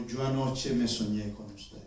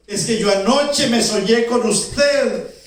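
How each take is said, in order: First: Low, soft, slow confession; relieved. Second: High, loud, stretched-out eager explanation; excited. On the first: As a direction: confess it quietly, with relief after a fright. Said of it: "Y la señora suspiró, aliviada". (confesión baja y lenta, con alivio) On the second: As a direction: tell her your dream with great excitement. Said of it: "Estaba tan contenta, tan emocionada". (explicación emocionada, alta, fuerte y pausada) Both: Acted.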